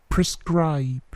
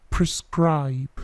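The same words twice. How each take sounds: The two takes are said the same way.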